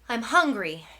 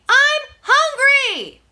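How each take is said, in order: First: It is said at normal loudness. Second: It is yelled very loudly.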